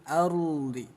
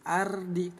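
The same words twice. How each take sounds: First: The r sound is heavy and thick. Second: The r sound is light and thin. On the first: The speaker calls it right. "Ro-nya dibaca tebal" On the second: The speaker calls it wrong. "enggak dibaca tipis"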